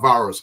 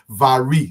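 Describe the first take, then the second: First: It sounds like the word virus. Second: It rhymes with Siri, ending in an ee sound. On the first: The speaker calls it wrong. "not virus" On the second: The speaker calls it right. "If you can say Siri, you can say Vari. That's the actual pronunciation"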